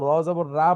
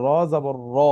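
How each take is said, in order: First: "র জবর রা" ending in open raa; wrong open ra. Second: "র জবর র" ending in rounded, heavy ro; correct ro sound. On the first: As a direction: model the mistake "র জবর রা" with an aa vowel. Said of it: "বললে ভুল হয়ে যাবে". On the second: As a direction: end "র জবর র" on o, not aa. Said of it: "এটা ওকে ওর নিজের মতো করে পড়তে হয়". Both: Shown as a demonstration.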